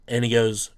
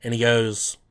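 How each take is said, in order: Both takes have the same delivery.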